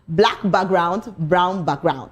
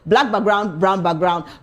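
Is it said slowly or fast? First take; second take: slowly; fast. First: It is said slowly. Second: It is said fast.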